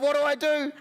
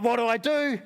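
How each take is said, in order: First: Higher, more frantic repeat; mock panic. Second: Said in the usual way. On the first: Lonely visitor spiralling, higher mock panic. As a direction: let the overthinking spiral up. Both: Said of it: "I'm like".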